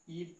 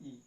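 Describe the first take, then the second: First: ई said briefly, one beat long; short vowel. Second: ई held for two beats; long vowel. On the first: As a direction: cut ई to a single short beat. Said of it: "इसमें बहुत ही कम समय लगता है". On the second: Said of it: "ज़्यादा समय लगता है". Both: Shown as a demonstration.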